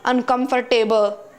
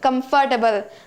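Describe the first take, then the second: First: The ending sounds like the word 'table'. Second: The ending sounds like the word 'double'. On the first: The speaker calls it wrong. "you might be pronouncing this word as uncomfortable, table" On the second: The speaker calls it right. "The correct pronunciation is comfortable... It is not table, it is double"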